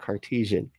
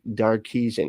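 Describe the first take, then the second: First: The word begins with a K sound. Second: The word begins with a D sound. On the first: The speaker calls it right. "I said it right this time" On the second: The speaker calls it wrong. "I always say like Darkesian because his name's Descartes"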